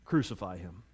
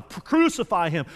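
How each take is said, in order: First: Low, hushed retelling of a crowd's shout; understated retold shout. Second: Drawn-out, moderately raised mock roar; retold mob roar. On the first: Crowd answers Pilate, shout retold low and quiet. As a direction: report the shout very softly and low. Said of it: "And they shouted back". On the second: Mob answers Pilate's challenge, slow half-shouted roar. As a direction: imitate a mob calling out, stretching it slowly. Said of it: "the mob roared even louder".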